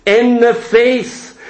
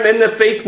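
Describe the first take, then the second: First: "in the faith" slowed right down and leaned on; slow emphatic phrase. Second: Said in the usual way. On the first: Shown as a demonstration. Preacher stressing the scripture phrase: slow and emphatic. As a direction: lay weight on "in the faith", slowly. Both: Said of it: "That little term".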